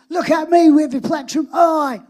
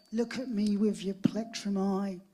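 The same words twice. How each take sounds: First: Much louder and higher, hitting me; emphatic repeat. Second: Said in the usual way. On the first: Retold or imitated. Producer repeats his lyric loudly and proudly to Sean. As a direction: proclaim the lyric with full conviction. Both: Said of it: "What, what did you say there?".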